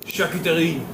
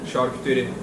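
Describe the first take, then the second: First: The word has a French pronunciation. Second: The word has a Turkish pronunciation. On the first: "charcuterie in French, which is the original word" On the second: "Say the Turkish one again"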